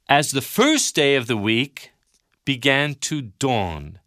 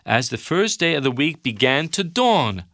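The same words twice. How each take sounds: First: It is read slowly and carefully. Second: It is read at a normal pace.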